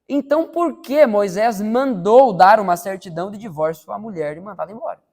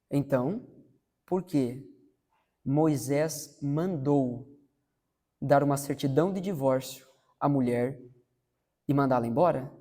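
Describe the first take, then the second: First: It is read quickly, without extra calm. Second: It is read slowly and calmly.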